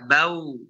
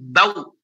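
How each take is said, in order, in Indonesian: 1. Suaranya mengalir keluar dengan lembut dan merata. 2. Suaranya ditekan keluar dengan kuat. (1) "Tapi biasa saja" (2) "Jangan bau, jangan ditekan ya"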